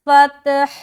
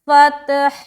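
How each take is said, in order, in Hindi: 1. शब्द के आख़िर में ह की साफ़ आवाज़ सुनाई देती है। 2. शब्द के आख़िर में ह की साफ़ आवाज़ सुनाई देती है।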